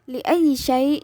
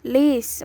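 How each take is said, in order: First: The phrase is said in full. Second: The phrase is said as one short syllable. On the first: This is the standard form. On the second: This is the colloquial form.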